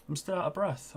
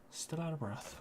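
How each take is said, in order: First: Catching breath while talking. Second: Breathless, trailing very soft; winded, barely voiced; out of breath. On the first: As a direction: still panting, soft. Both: Real, not acted.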